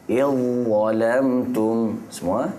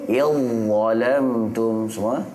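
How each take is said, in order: Both takes have the same delivery.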